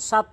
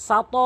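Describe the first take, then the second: First: "সাত" shut on the T; closed final T in "সাত"; common mistake. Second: "সাত" high, loud, T released with an echo; forceful released T in "সাত"; correct bounce. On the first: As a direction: end "সাত" with no bounce. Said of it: "সাত বলে". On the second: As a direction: punch and bounce the final T of "সাত". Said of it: "এভাবে ধাক্কা দিতে হবে". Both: Shown as a demonstration.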